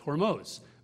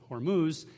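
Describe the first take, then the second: First: It is said the original Persian way. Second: It is said the anglicized English way. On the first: This is how the name is meant to be said. The speaker calls it right. "the right way to say it is Hormuz" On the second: This is how the name came to be said from maps. The speaker calls it wrong. "people started pronouncing it Hormuz"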